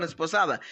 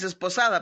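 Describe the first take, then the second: First: "esposada" said cleanly, starting on the e; careful fix of "esposada", no s in front; corrected word. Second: "esposada" slurred as "sesposada" with a stray s; blurred "esposada" joined to an s sound; slip of the tongue. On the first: ("esposada" corregida, pronunciada con cuidado) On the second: ("esposada" dicho como "sesposada", con una s de más) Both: Real, not acted. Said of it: "perdón, esposada".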